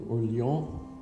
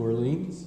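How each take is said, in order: First: It is said with a French pronunciation. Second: It is said with an English pronunciation. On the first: "which is the way the French, I guess, pronounce Orleans" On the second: "we pronounce it New Orleans"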